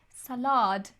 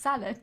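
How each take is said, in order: First: The word is said in an imitated foreign-sounding way. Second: The word is said in the speaker's normal way. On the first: This is how someone else says it. The speaker calls it wrong. "She goes" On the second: This is how it should be said. The speaker calls it right. "no, no, it's"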